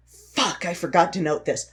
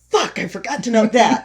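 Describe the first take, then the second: First: Understated retold curse; mild frustrated self-talk. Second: Higher, louder retold curse; mock frustrated outburst. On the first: Sick script writer noticing a missed note, mildly frustrated. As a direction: curse at yourself lightly. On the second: Sick script writer missing another note, louder mock frustration. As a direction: escalate the self-reproach, half amused. Repeats frustrated self-talk, escalating.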